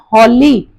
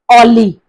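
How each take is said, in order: First: The word begins with an audible h sound. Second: The word begins with a vowel, no h. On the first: The speaker calls it right. "here it is pronounced as holy" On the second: The speaker calls it wrong. "not Ollie"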